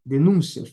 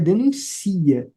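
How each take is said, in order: First: The stress falls on the second syllable. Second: The stress falls on the third syllable. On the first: It is the noun, a complaint. "Denúncia é substantivo" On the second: It is the verb, denounces. "No denuncia, a sílaba tônica é o si"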